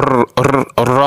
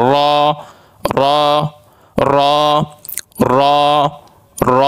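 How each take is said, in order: First: "র" with a rolled, trilled r; wrongly rolled r. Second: "র" with a full, heavy r and held vowel; thick, heavy r. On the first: Teacher showing students how not to say it, trilled r in "র". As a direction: roll the r in "র" repeatedly. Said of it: "এরকম উচ্চারণ করব না আমরা". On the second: Teacher modelling the letter for students, thick heavy "র". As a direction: say "র" thickly, one short roll into a rounded "aw". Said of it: "আমরা একটু মোটা করে উচ্চারণ করব". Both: Shown as a demonstration.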